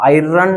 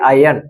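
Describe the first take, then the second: First: The r sound is pronounced in the word. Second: The r sound is silent in the word. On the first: The speaker calls it wrong. "ಐರನ್ ಅನ್ನಕ್ ಹೋಗ್ಬೇಡ್ರಿ" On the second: The speaker calls it right. "ಆರ್ pronounce ಆಗ್ತಿಲ್ಲ"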